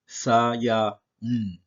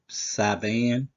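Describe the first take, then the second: First: The middle has no v sound at all. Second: The middle consonant is a v sound. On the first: The speaker calls it right. "the con- correct pronunciation to this is is Sayaun" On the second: The speaker calls it wrong. "But we all know that's that's not correct"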